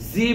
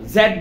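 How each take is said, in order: First: The letter is pronounced as zee. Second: The letter is pronounced as zed. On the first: This is the American way. "জি বলে আমেরিকানরা" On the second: This is the British way. "জেড বলে ব্রিটিশরা"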